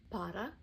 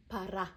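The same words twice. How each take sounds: First: "Пора" with a long stressed final А, rising; "Пора", first vowel reduced, final А long; stressed final syllable. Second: "пора" with a louder long final А; "пора" said as "пара", ending stressed; stressed final syllable. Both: Shown as a demonstration. Teacher drilling learners, stress on the end. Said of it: "Practice drill".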